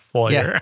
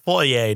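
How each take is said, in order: First: The name is sounded out just as it looks. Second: The name is said in the refined, non-literal way. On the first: The speaker calls it wrong. "not Fourier" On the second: The speaker calls it right. "I told you it's Fourier"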